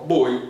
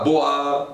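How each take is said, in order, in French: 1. La voyelle se dit comme 'oy'. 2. La voyelle se dit comme 'wah'. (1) "non, boi, c'est ça" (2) "pas boa"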